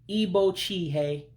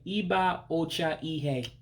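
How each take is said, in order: First: The two a vowels are dropped and run together. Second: Every vowel in the three words is pronounced. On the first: It is the everyday way people say it. "to say it the common way" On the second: It is the careful, formal way of saying it. "if you're going to say something really properly"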